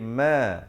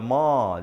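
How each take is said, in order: First: The vowel is said projected toward the front. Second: The vowel is said with the mouth wide open. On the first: It sounds properly Arabic. The speaker calls it right. "tapi ma, ma, projection wordnya ke depan" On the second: It sounds too Malay. The speaker calls it wrong. "jangan baca ma, jangan nganga luas"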